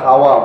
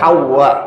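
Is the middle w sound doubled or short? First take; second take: short; doubled. First: The middle w sound is single and short. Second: The middle w sound is doubled and held. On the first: The everyday local way of saying the name. "যেটাকে আমরা হাওয়া বলি" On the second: The original Arabic way of saying the name. "বিশুদ্ধ হচ্ছে হাওয়া"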